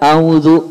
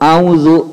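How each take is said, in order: The two takes are said the same way.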